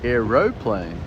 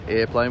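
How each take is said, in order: First: It has three syllables, with a middle 'o'. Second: It has two syllables, with no middle 'o'. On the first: This is the local form. "We put the O in" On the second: This is the American form. "that's how Americans say it"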